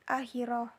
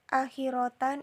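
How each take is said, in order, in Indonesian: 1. Kata ini berakhir dengan bunyi h yang lembut. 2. Kata ini berakhir dengan t dan -an.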